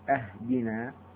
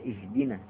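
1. تبدأ الكلمة بالحركة a. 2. تبدأ الكلمة بالحركة i. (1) "أهدنا من الهدية" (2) "وهي إهدنا من الهداية"

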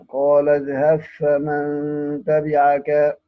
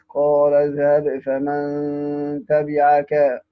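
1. يُدغم b في f الذي يليه. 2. تُنطق b بوضوح قبل f.

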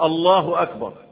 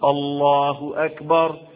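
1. الحركة في "Allah" قصيرة. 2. الحركة في "Allah" ممدودة. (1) "يجي الله أكبر" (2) "هي بتتمد كده برضه"

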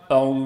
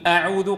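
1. الهمزة الأولى في «أعوذ» مفخمة وثقيلة. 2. الهمزة الأولى في «أعوذ» مرققة وخفيفة. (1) "قال أعوذ بالله هكذا، إذن فخم الهمزة المرققة" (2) "بدل أن يقول أعوذ"

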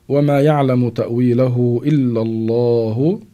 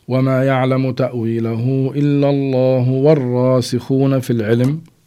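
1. يتوقف المتكلم بعد 'الله'. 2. يواصل المتكلم بعد 'الله' دون توقف. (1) "مع قراءة الوقف نقف عند لفظ الجلالة الله" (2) "إذا قرأناها مع الوصل"

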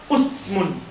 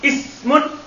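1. Vokal pertama adalah bunyi 'u'. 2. Vokal pertama adalah bunyi 'i'. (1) "boleh untuk dhamma" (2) "boleh untuk kasra"

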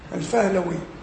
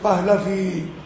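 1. تبدأ الكلمة بصوت f. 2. تبدأ الكلمة بصوت p. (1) "العرب لما كانوا يقابلوا كلمة فيها بي تقيلة يقلبوها إلى إيه؟ حرف الفاء" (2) "بالبي تقيلة بهلافي"

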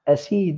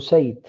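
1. يبدأ بـ 'a' وفيه 'i' طويلة. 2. يبدأ بـ 'u' وفيه 'ay'. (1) "بفتح الألف وكسر السين" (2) "بضم الهمزة وفتح السين"

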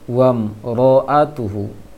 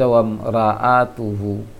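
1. Suku kata r itu berat dengan vokal yang dibulatkan. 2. Suku kata r itu tipis dengan a terbuka. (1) "mesti ditebalkan" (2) "jangan dibaca wam ra atuhu"

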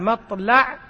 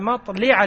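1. الحركة بعد اللام هي 'a'. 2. الحركة بعد اللام هي 'i'. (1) "بفتح اللام" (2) "وكسرها"

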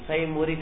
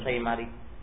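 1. Vokal setelah m adalah u. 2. Vokal setelah m adalah a. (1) "boleh mendhamma mim" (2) "dan fathanya"

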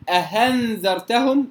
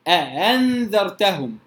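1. الهمزة الثانية تُنطق h. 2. الهمزة الثانية مسهّلة بين الهمزة وh. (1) "ولا أقول أهنذرتهم" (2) "وإنما أأنذرتهم"

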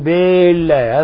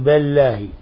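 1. الكسرة بعد الباء مُشبعة وممدودة. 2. الكسرة بعد الباء مُمالة نحو الفتح. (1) "هذا خطأ أيضا، لأن هنا تولد منها ألفا" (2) "إذا جعلها بين قال بالله أعوذ بالله هذا لا يجوز"

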